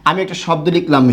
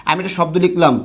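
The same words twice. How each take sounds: The two takes are said the same way.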